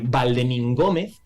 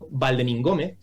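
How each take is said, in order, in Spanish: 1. El nombre se dice despacio, separando las partes. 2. El nombre se dice rápido, con las partes unidas. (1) "que así a lo mejor no nos suena mucho" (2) "si lo decimos más rápido"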